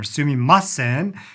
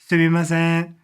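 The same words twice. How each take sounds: First: One syllable is stressed more than others. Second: All syllables are said at an even level. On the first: The speaker calls it wrong. "they don't have an accent on one of the words. So it's not sumimasen" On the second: The speaker calls it right. "Japanese language is considered beautiful when it's monotone"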